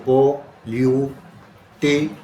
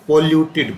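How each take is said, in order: First: Polluted slowly in four pieces, po-lyu-te-d, gaps between; syllable by syllable. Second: Said in the usual way. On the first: Shown as a demonstration. Teacher counting four breaks for the class, polluted split into syllables. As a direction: break polluted into separate drawn-out beats. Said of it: "चार बार". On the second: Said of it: "polluted बोल के देखियो".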